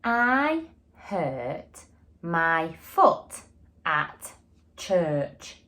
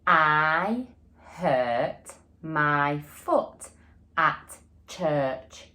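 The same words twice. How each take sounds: First: Each word slow and deliberate; slow modelled sentence. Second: Very slow, word by word, with the class; slow repeat together. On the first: Teacher modelling a sentence to young pupils, slow and clear. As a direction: say it slowly for the class to copy. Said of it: "my sentence is going to be". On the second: Teacher saying the sentence again with pupils, slow and even. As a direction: lead the class through it slowly. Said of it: "Shall we say it again". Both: Shown as a demonstration.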